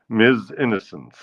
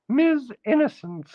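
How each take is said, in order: First: Said in the usual way. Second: High falsetto title. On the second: Acted.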